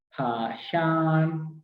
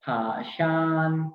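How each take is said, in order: First: फाशान stretched out slowly; slow model of फाशान; slow demo. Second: Said in the usual way. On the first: Shown as a demonstration. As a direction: draw out फाशान syllable by syllable. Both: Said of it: "airport को बोलते हैं फाशान".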